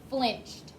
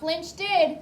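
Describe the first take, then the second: First: The ending is said without an extra syllable. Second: An extra syllable is added at the end. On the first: The speaker calls it right. "It's just flinched" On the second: The speaker calls it wrong. "Not flinched did. make sure that you're not saying an extra D sound"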